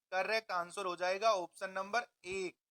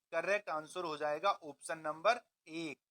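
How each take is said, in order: Both takes have the same delivery.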